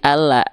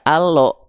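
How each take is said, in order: First: The vowel sounds thin, like A. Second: The vowel sounds heavy, like O. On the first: The speaker calls it right. "tapi ala" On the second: The speaker calls it wrong. "nggak dibaca allo"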